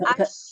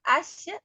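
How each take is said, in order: First: The final sh flows out with no added vowel. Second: The final sh bounces into an added vowel. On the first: The speaker calls it right. "sukunnya kita alirkan, namun tidak kita pantulkan" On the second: The speaker calls it wrong. "Jangan sampai asya"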